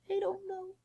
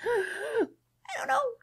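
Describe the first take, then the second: First: It is said in a small, quiet squeak. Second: It is said much louder, after a breath.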